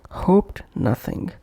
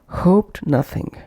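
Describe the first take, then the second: Both takes have the same delivery.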